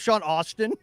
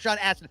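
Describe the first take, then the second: First: The surname is said as 'Austin'. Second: The surname is said as 'Aston'. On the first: The speaker calls it wrong. "I mispronounced ... I kept calling him" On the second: The speaker calls it right. "Aston, that's right"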